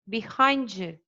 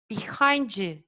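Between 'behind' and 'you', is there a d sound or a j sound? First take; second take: j sound; j sound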